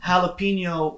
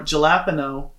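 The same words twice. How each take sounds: First: It is pronounced the Spanish way. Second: It is pronounced the English way.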